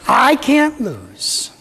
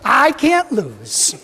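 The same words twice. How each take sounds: First: It is said with less energy. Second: It is said with more energy.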